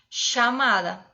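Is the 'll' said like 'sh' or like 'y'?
sh. The 'll' sounds like an 'sh' sound. This is how it is said in Argentina. "na Argentina, o mais característico é o X, como se fosse um X"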